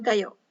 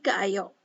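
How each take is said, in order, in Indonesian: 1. Dua vokal a menyatu menjadi satu. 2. Dua vokal a diucapkan terpisah. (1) "diucapkan secara cepat, ga ayo ini e, menjadi gayo" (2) "sulit diucapkan atau kesannya itu canggung"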